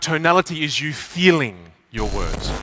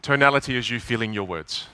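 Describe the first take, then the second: First: It is said with feeling and expression. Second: It is said flatly, without feeling.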